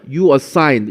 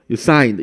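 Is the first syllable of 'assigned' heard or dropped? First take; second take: heard; dropped. First: The weak first syllable of assigned is heard. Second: The weak first syllable of assigned is dropped.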